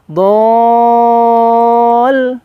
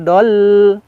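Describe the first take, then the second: First: The vowel is held long before the next letter. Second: The vowel is short before the next letter. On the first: The speaker calls it right. "Tapi dibaca panjang dulu do-nya" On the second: The speaker calls it wrong. "Jadi jangan wa wajadaka dol, jangan"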